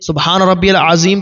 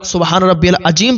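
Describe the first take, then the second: First: The last word is said with a 'z' sound. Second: The last word is said with a 'j' sound. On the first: The speaker calls it right. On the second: The speaker calls it wrong.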